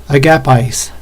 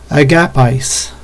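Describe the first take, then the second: The two takes are said the same way.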